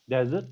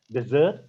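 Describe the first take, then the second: First: "Desert" said DEZ-ert; stress on first syllable. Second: "desert" said de-ZERT; stress on second syllable. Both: Shown as a demonstration. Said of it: "because of the placement".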